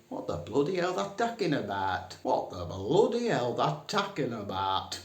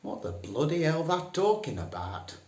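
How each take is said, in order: First: Very broad Northern "What the bloody hell"; broader Northern. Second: Broad Northern "What the bloody hell". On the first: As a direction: lay the Northern on thicker, "bloody" stretched. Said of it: "to be even more northern". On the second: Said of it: "best to use the phrase". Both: Shown as a demonstration.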